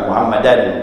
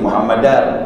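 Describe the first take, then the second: First: The word ends with an n sound. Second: The word ends with an r sound. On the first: The speaker calls it wrong. "bukan Muhammadan" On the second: The speaker calls it right. "dalam kitab-kitab mazhab Syafi'i itu Muhammadar"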